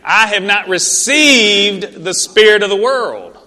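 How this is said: It is said with strong, believing conviction.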